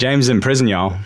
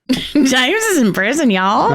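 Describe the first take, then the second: First: Mock Southern accent. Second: Laughing through a put-on Southern twang; mock Southern accent. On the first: Teasing a cohost with a hammed-up Southern accent. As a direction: lay on a thick Southern twang. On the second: Cohost joining in with a laughing Southern accent. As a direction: drawl it out like a Southern storyteller. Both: Shown as a demonstration. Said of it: "only gonna come out southern".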